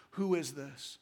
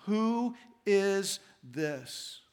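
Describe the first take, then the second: First: Low, soft and hushed; hushed wonder. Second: Very slow, drawn-out awed question; awed fear. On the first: Disciples in the still night after the storm, hushed question. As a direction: ask it quietly into the night. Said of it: "in the stillness of the night". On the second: Frightened disciples asking each other, slow awed question. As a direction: let the terror hang on each word. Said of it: "They were terrified and asked each other". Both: A narrator's reading.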